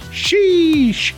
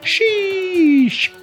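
First: The vowel is short and not stretched. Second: The vowel is stretched out long.

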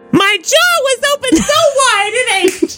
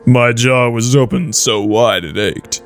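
First: It is read in a higher voice. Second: It is read in a lower voice.

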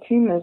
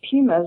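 First: The word is said with an American pronunciation. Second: The word is said with a non-American pronunciation.

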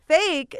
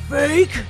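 First: It is said in a normal voice. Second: It is said in a deep wrestler voice.

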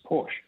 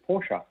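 First: The word ends without a final vowel sound. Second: The word ends with a final vowel sound. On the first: This is how English speakers read it. The speaker calls it wrong. "we have usually drop the E or don't pronounce the E" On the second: This is how German speakers say it. The speaker calls it right. "but it's actually Porsche"

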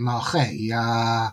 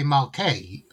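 First: The middle consonant is a throaty ch sound. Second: The middle consonant is a hard k sound. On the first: The speaker calls it right. "it's actually Malchei" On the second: The speaker calls it wrong. "people might say Malkei"

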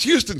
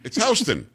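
First: It is said the way Texans say it. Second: It is said the way New Yorkers say it. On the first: The speaker assumes the street shares the Texas city's name. The speaker calls it wrong. "we go there from Texas and say, oh, look, it's Houston Street" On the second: This is the local name for the street. The speaker calls it right. "somebody says, hey, it's Houston"

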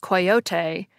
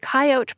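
First: The word is said with three syllables. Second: The word is said with two syllables. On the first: "shows the 3-syllable pronunciation first, likely pronounced coyote" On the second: "Imperial Dictionary ... shows 2 pronunciations, with the coyote pronunciation first. But Webster's 1913 ... flips that around and shows the 3-syllable pronunciation first"

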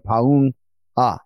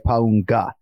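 First: The name is split into two separate parts. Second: The name is run together as one word. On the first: The speaker calls it right. "try to separate it into two surnames and say Paunga" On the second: The speaker calls it wrong. "so you don't say Paunga"

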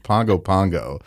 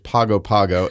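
First: It is said with an 'ng' sound. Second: It is said with a plain 'g' sound. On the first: The speaker calls it right. "It's Pongo Pongo. It rhymes with song" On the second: The speaker calls it wrong. "which is an incorrect pronunciation"

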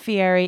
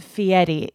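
First: The name is said with a plain English pronunciation. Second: The name is said with an Italian pronunciation. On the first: The speaker calls it wrong. "it's not Fieri" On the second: The speaker calls it right. "You have to pronounce it the Italian way"

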